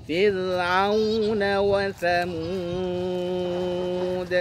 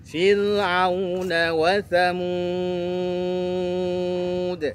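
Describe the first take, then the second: The two takes are said the same way.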